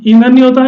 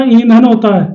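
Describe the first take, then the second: First: "ईंधन" with a quick, short opening i; छोटी इ का उच्चारण. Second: "ईंधन" with a long opening ee; बड़ी ई का उच्चारण. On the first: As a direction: clip the first vowel of "ईंधन". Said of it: "छोटी की मात्रा है ना वो तेजी से बोली जाती है". ("ईंधन" की शुरुआत छोटी इ से) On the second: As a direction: stretch the first vowel of "ईंधन". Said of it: "वो थोड़ा सा गैप लिया जाता है". ("ईंधन" की पहली ई खींचकर) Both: Shown as a demonstration.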